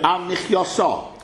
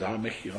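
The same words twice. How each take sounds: First: "Al Michyoso" slow and louder, each syllable laid out; deliberate correct answer. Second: "Al Michyo" said softer, ending cut off at Michyo; clipped short form. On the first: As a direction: spell out "Al Michyoso" slowly as the answer. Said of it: "why should we say". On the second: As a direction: drop the end, just "Al Michyo". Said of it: "whatever it is". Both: Shown as a demonstration.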